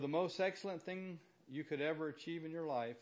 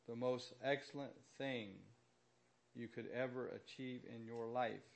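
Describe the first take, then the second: First: It is spoken at a normal pace. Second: It is spoken at a slower pace.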